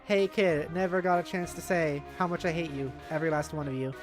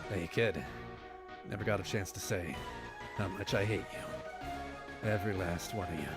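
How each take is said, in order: First: It is read in the speaker's normal voice. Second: It is said in a put-on character voice.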